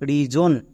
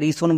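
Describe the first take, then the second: First: The middle consonant is a voiced 'z' sound. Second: The middle consonant is a voiceless 's' sound. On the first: The speaker calls it right. "এস এর জন্য বর্গীয় জ হচ্ছে" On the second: The speaker calls it wrong. "একে আমরা রিসন বলবো না"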